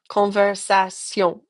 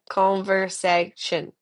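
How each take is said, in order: First: The ending has the French nasal tion sound. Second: The ending has the English shun sound. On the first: The speaker calls it right. "makes a tion sound" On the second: The speaker calls it wrong. "not a conversation sound"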